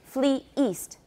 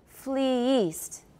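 First: The two words are separated by a glottal stop between them. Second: The two words run together with no glottal stop between them. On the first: "usually we'll put a glottal stop in there to separate the two syllables" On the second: "Let's try to do it without the glottal stop, but still with two syllables"

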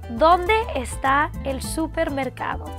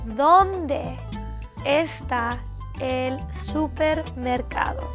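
First: It is said at normal speed. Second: It is said slowly.

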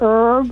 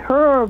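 First: It is pronounced the American English way. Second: It is pronounced the British English way. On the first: The speaker calls it right. "It's supposed to be herb" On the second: The speaker calls it wrong. "He used to say herb"

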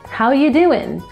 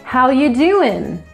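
First: Said in a Southern accent with reduced sounds. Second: Said in a Southern accent with reduced sounds.

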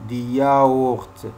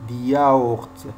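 Both takes have the same delivery.

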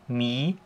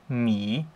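First: The pitch rises toward the end. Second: The pitch dips down, then rises. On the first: "ein ansteigender Strich, genauso wie der Tonverlauf auch ist" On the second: "Beim dritten Ton ist es so ein kleines V"

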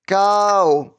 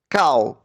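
First: The word is said in a choppy robot voice. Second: The word is said quickly and briefly. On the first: "А тепер як робот по складах" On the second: "А тепер швидко"

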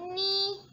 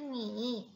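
First: The pitch stays high and level. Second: The pitch dips low and then rises. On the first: "Nada pertama bacanya ni" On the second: "Nada ketiga tuh ni"

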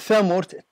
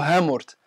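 First: The word begins with a th sound. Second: The word begins with an h sound. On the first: This is a local pronunciation. "الثاء نطق محلي ليس إلا" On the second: This is a neighbouring local pronunciation. "في الدوّارة اللي بجنبهم يقولوا هامورت"

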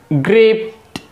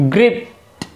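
No difference in how they are said.

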